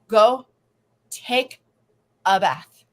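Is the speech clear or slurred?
slurred. It is said slurred and slowly.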